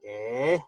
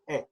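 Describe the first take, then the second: First: The vowel is drawn out without a stop. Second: The vowel ends abruptly in a glottal stop. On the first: The speaker calls it wrong. "instead of going eh" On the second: The speaker calls it right. "you cut the air off"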